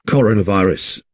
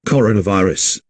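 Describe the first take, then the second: No difference in how they are said.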